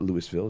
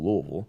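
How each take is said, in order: First: It is said the way outsiders say it. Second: It is said the way locals say it. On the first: The speaker calls it wrong. "It's not it's not Louisville" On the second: The speaker calls it right. "that's the way we, we pronounce it here"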